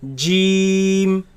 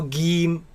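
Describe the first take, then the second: First: The word begins with a J sound. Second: The word begins with a hard G sound. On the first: The speaker calls it right. "In the Quran, it's pronounced as Jim" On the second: The speaker calls it wrong. "it is incorrect to pronounce it as Gim with a G, G sound"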